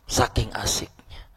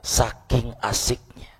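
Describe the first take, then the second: First: Hushed whispered repeat. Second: Said in the usual way. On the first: Shown as a demonstration. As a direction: breathe it as a secret echo. Repeats phrase, second time whispered.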